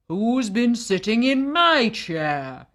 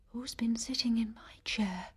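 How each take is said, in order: First: It is said in a very loud voice. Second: It is said in a very soft voice. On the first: "he said in an even louder voice" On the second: "she said in an even softer voice"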